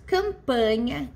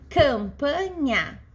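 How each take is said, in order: First: Said in the usual way. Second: "campanha" drawn out slowly, syllable after syllable. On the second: Shown as a demonstration. Teacher giving class an example of three syllables, syllable by syllable. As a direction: break "campanha" into slow, separate syllables.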